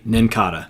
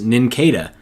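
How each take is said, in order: First: The ending is said unlike cicada. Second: The ending is said like cicada. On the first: The speaker calls it right. "it's actually Nincada" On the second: The speaker calls it wrong. "assumed this Pokemon was pronounced Nincada"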